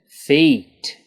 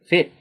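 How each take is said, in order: First: The vowel is long and drawn out. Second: The vowel is short and clipped. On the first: The speaker calls it right. "The correct pronunciation, ... Lengthen that E sound" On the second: The speaker calls it wrong. "I'll say it incorrectly"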